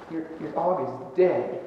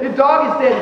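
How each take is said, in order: First: Low, soft and slow; halting, hushed retold bad news; hesitant bad news. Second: Firmer, livelier retold protest; emphatic, exasperated comeback; insistent retort. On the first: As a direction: break it slowly and quietly, with a stumble. Breaking bad news to upset woman. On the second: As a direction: state it as plain fact, insisting. Insisting when she will not accept it.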